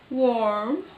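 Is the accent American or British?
American. It is said in an American accent, with r.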